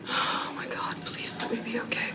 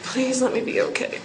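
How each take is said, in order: First: Soft, urgent whispered prayer; frightened whisper. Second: Said in the usual way. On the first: Real, not acted. Praying alone in her shelter, whispering in fear. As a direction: breathe the plea under your breath.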